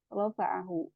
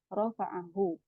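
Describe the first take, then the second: Both takes have the same delivery.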